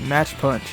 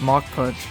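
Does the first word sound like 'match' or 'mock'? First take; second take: match; mock. First: The first word sounds like 'match'. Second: The first word sounds like 'mock'. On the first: The speaker calls it wrong. "I always say match punch instead of mock punch" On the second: The speaker calls it right. "instead of mock punch"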